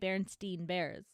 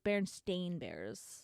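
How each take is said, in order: First: The name's last syllable sounds like 'stein'. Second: The name's last syllable sounds like 'stain'. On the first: This is the name as the speaker remembers it. The speaker calls it wrong. "I even say Berenstain Bears" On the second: This is the name as it is actually spelled. The speaker calls it right. "apparently it's spelled with an A and not an E"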